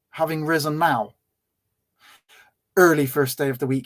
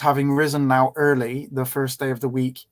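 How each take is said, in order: First: The pause comes after the word now. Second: The pause comes after the word early. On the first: The appearing happened early. The speaker calls it wrong. "I can't put that comma there" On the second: The rising happened early. The speaker calls it right. "I can't read that in, in any other way"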